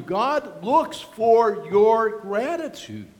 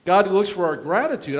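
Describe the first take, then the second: First: Slowed right down, every word weighed; deliberate, drawn-out reminder; slow emphatic repeat. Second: Said in the usual way. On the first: Shown as a demonstration. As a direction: drive it home slowly. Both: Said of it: "I remind you".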